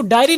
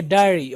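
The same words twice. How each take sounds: First: डायरी with a full ya glide, the wrong way; डायरी as learners wrongly say it; wrong pronunciation. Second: डायरी clipped with no ya glide; डायरी in the teacher's correct form; correct pronunciation. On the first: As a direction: show the mistaken डायरी with a clear y. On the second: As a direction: model the right डायरी, short. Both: Shown as a demonstration. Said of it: "अब इसको डायरी नहीं पढ़ेंगे".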